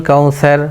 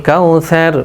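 The two takes are said the same way.

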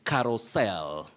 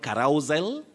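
First: The stress falls on the last syllable. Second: The stress falls on the second syllable. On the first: The speaker calls it right. "You say carousel" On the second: The speaker calls it wrong. "So avoid carousel"

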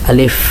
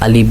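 First: The final sound is a labiodental f with teeth. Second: The final sound is an aspirated bilabial ph. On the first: The speaker calls it right. "উপরের দুইটা দাঁত নিচের ঠোঁটের সাথে হালকা মিলাবেন না, হালকা একটু ফাঁক থাকবে" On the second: The speaker calls it wrong. "আলিফ আলিফ বা তা সা এরকম না"

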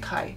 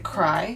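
First: No r sound follows the first consonant. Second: An r sound follows the first consonant. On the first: This is how people usually say it casually. "they just say kai. They take out the R" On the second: This is the standard pronunciation. "you're supposed to say cry"

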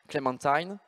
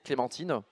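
First: It is said with an American accent. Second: It is said with a French accent. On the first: It evokes French-style luxury. "Mais pour un, Améric- un américain" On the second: It is an ordinary name and a fruit. "Pour nous, en français"

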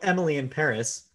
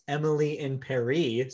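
First: Paris ends with an 'iss' sound. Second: Paris ends with an 'ee' sound.

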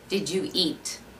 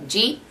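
First: It is said plainly, word by word. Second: It is run together in a Wisconsin accent.

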